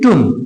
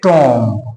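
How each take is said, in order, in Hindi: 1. स्वर 'oo' जैसा सुनाई देता है। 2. स्वर 'aw' जैसा सुनाई देता है। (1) "ये है टुम" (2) "अगर मैं इसको पूरा पूरा पढ़ूं तो इसको पढ़ेंगे टॉम"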